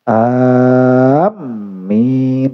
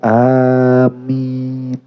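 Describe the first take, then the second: First: The m sound is doubled and held. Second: The m sound is short and single. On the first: It no longer means a prayer to God. The speaker calls it wrong. "jangan pakai tasdid" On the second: It means asking God to grant the prayer. The speaker calls it right. "Mimnya ditakhfif"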